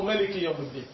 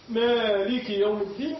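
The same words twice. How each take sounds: First: "مالك" with a short first vowel; shortened alif. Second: "مالك" with a long drawn-out aa, slow and higher; long alif. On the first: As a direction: cut the aa of "مالك" short, without drawing it out. (تقصير الألف في "مالك") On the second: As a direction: stretch the first vowel of "مالك", reciting slowly. (مدّ الألف في "مالك" ببطء) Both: Shown as a demonstration. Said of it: "تقصير ألف يعني".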